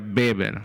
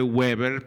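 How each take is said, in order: First: The name begins with a B sound. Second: The name begins with a W sound. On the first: "pero se pronuncia Weber" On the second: "Se escribe Weber"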